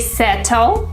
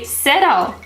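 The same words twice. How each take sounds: First: The T is a crisp T. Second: The T sounds like a D. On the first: The speaker calls it wrong. "We don't say" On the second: The speaker calls it right. "we say"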